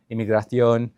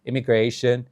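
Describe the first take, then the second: First: Immigration said the French way, "ee-mee-grah-syon"; French pronunciation. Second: Immigration said the English way, "im-i-GRAY-shun"; English pronunciation. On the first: Showing how close vocabularies are, immigration in French. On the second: Showing how close vocabularies are, immigration in English. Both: Shown as a demonstration. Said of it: "francês, italiano, inglês, espanhol".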